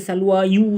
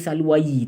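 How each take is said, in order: First: The word ends with an added yu sound. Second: The word ends with an added yi sound. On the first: "Jangan baca salwa yu, tak boleh" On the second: "tak boleh baca salwayi"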